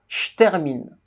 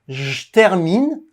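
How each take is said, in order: First: The first word is reduced to a voiceless 'ch' sound. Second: The first word is reduced to a voiced 'j' sound. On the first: "avec le son ch, C H, ch" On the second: "avec le son J"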